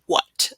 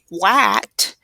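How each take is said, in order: First: The vowel is a short, relaxed schwa. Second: The vowel is a full, open 'a' sound. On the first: The speaker calls it right. "it's going to say what. So it's that schwa" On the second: The speaker calls it wrong. "this isn't going to say what"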